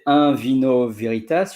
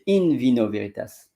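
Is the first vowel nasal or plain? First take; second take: nasal; plain. First: The first syllable has a nasal French-style vowel. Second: The first syllable is a plain 'in' sound. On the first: The speaker calls it wrong. "you don't say in vino veritas" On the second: The speaker calls it right. "you say in vino veritas"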